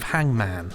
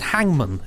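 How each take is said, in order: First: The last syllable is a full 'man'. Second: The last syllable is reduced to 'mun'.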